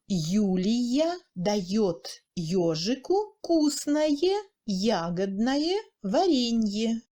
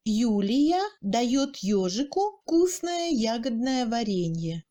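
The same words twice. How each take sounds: First: Very slow, word by word; slow demonstration. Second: Said in the usual way. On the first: Shown as a demonstration. Teacher repeating example for learners, slow and word by word. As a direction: separate each word of the sentence, drawn out.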